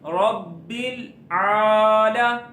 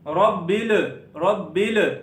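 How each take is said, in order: First: The final L joins smoothly into the vowel. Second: The final L bounces with a small echo. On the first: The speaker calls it right. "बल्कि क्या पढ़ना है" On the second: The speaker calls it wrong. "रब्बिल रब्बिल इस तरह नहीं पढ़ना"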